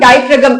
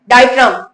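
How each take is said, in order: First: The word ends in -fragam with a g sound. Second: The word ends in -fram with no g sound. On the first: The spelling is sounded out so it is remembered. "इसमें जी भी आता है spelling में" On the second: This is how the word is normally pronounced. "बोलते डायफ्राम है"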